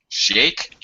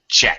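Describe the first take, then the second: First: The word begins with a soft SH sound. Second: The word begins with a sharp CH sound. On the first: The speaker calls it wrong. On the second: The speaker calls it right.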